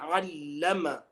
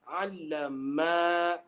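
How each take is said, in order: First: The final vowel is kept short. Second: The final vowel is drawn out long. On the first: One person taught. The speaker calls it right. "Instead of uh" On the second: Two people taught. The speaker calls it wrong. "elongating the ma"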